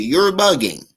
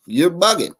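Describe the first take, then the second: First: "bugging" with its final -ing fully pronounced; full ING ending. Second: Said in the usual way. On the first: Shown as a demonstration. Commentator correcting himself, "bugging" with a careful ING ending. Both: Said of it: "I gotta say it with an I N G".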